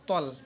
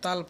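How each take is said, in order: First: The vowel sounds dark, like 'o'. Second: The vowel sounds bright, like 'aa'. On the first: The speaker calls it right. "এটা হবে তল" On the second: The speaker calls it wrong. "অনেকে তাল পড়ে"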